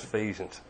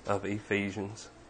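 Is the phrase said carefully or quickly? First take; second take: quickly; carefully. First: The phrase is said fast with the words blurred together. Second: The phrase is said slowly with each word clear. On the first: The speaker calls it wrong. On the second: The speaker calls it right.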